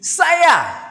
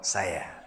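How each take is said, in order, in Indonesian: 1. Kata saya diucapkan dengan nada tinggi. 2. Kata saya diucapkan dengan nada rendah. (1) "Saya dengan nada tinggi" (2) "Kalau bawah"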